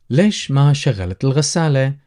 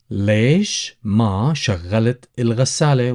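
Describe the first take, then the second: First: Said in the usual way. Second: ليش ما شغلت الغسالة drawn out slowly for learners; slow, careful teacher repeat. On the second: Shown as a demonstration. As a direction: say it again slowly so students can follow.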